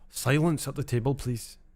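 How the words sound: It is said in a Scottish accent.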